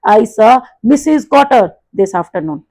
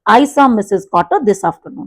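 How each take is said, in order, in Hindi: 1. 'Mrs Cotter' को बाकी शब्दों से काफ़ी ज़्यादा तेज़ बोला जाता है। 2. सभी शब्द एक जैसी आवाज़ में बोले जाते हैं, बस आख़िर में धीमे हो जाते हैं। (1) "दिस इज रॉन्ग" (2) "आवाज की जो आपकी लाउडनेस है वो तो उतनी रखनी है"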